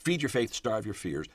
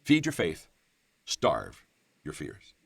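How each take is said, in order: First: Said in the usual way. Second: FEED rings out, STARVE drops low and drawn out; weighty, spaced-out delivery of STARVE your fears; emphatic slogan. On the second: Real, not acted. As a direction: announce it slowly, pausing after faith and after STARVE. States the sermon's key slogan.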